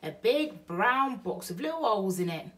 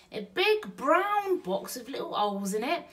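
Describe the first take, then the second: First: Louder, matter-of-fact Bill; Bill describes the box to Betty, matter-of-fact; Burglar Bill. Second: Higher, wondering woman's echo; Betty echoes Bill, higher and wondering; Burglar Betty. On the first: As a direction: lay it out plainly for her. Bill's line, then Betty echoes. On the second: Betty repeats Bill's line. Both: Acted.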